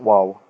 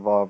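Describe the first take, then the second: First: The word begins with a W sound. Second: The word begins with a V sound. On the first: This is the older name of the letter. "nor do we call it Wow" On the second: This is the modern name of the letter. "even though we don't pronounce the Vav that way today"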